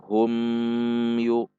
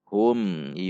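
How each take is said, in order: First: The m is stretched out long. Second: The m is short and clear. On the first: The speaker calls it wrong. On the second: The speaker calls it right. "Namun hum, yu"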